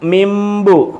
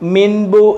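First: The nasal before b is pronounced as m. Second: The nasal before b is pronounced as n. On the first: The speaker calls it right. "ഇവിടെ ഒരു മീമിൻ്റെ ശബ്ദം വരും" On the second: The speaker calls it wrong. "മിൻബു എന്ന് പറയത്തില്ല"

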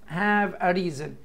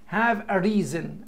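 Both takes have the same delivery.

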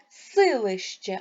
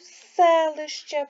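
First: The first vowel sounds like и. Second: The first vowel sounds like е. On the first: The speaker calls it wrong. "Ми ж не говоримо силище" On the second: The speaker calls it right. "а говоримо селище"

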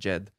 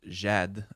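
First: The vowel is kept short. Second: The vowel is held long. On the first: "not jed" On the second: "the straight line which stands for the double a, which is jed"

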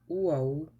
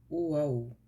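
Both takes have the same delivery.

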